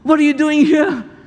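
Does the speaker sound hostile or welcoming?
welcoming. The tone is warm, surprised and welcoming. The visitor is gladly welcomed. "One way is, wow!"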